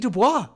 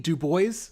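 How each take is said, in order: First: Bois is said the French way, like bwah. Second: Bois is said the English way, like boyz. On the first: The speaker calls it wrong. "I always pronounced it the French way first, and then I realized I was fucking wrong" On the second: The speaker calls it right. "yes, it sounds like that"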